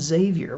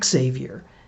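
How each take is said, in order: First: The name begins without an 'ex' sound. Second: The name begins with an 'ex' sound. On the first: "why do I keep insisting on pronouncing it Xavier?" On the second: "in order to emphasize the X-ness of it all, he pronounced it Xavier"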